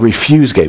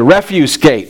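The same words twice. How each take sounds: First: The stress is on the second syllable of refuse. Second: The stress is on the first syllable of refuse. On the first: The speaker calls it wrong. "That's the wrong pronunciation of this word" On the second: The speaker calls it right. "It's the refuse gate, right?"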